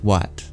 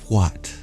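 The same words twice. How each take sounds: First: The word starts without an audible breathy H. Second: The word starts with an audible breathy H. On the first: "We could take the H out and it would still be pronounced what" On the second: "They add breath to it"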